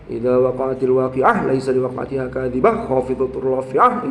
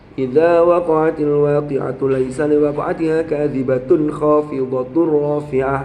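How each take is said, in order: First: Word endings are clipped without stopping for breath. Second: Linked words keep their final vowels throughout. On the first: The speaker calls it wrong. "Ono wong maca cepet-cepet" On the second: The speaker calls it right. "kalau disambung kan enggak boleh ambil nafas, tapi harokat akhir harus dibaca"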